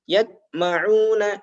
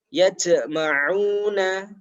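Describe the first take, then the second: First: The j is stopped with no bounce. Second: The j ends with a hissing sound. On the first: "Ketika tidak dipantulkan" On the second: "ini bukan pantulan, tapi ini adalah desis"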